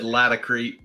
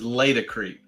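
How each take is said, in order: First: The first syllable does not sound like latex. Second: The first syllable sounds like the start of latex. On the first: "I've always said Laticrete just because" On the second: "the right way to say it is Laticrete because it's latex"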